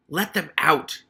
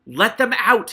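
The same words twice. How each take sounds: First: Put-on angry rat shouting up at the boy; a sharp raised command; shouted. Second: Much louder, higher rat scream. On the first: Hammond Pork shouting up at Keith to free the rats. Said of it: "he shouted up to Keith". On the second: Acted. Hammond Pork screaming at Keith to free the rats. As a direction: scream it at full rage. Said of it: "Hammond Pork screamed".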